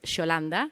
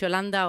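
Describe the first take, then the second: First: The name is said in an Argentinian accent. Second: The name is said in a neutral accent.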